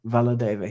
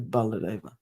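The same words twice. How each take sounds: First: "Valadeva" begun with a V sound; V pronunciation. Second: "Baladeva" begun with a B sound; B pronunciation. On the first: Reader noting the spelling used here, "Valadeva" with a V. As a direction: say "Valadeva" with initial V, not B. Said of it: "he's done Srila Valadeva". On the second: Reader contrasting the usual name, "Baladeva" with a B. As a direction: say "Baladeva" with initial B, not V. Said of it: "instead of Baladeva". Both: Shown as a demonstration.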